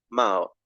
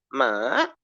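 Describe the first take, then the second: First: The pitch is low. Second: The pitch dips down and then rises. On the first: "me voy a uno bajo, a uno más grave" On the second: "empiezo normal, luego me bajo y luego subo"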